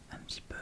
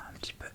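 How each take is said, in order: Both takes have the same delivery.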